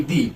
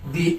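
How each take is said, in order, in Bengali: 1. স্বরধ্বনিটি একটি লম্বা 'ee' ধ্বনি। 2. স্বরধ্বনিটি একটি লম্বা 'ee' ধ্বনি।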